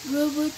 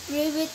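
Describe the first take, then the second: No difference in how they are said.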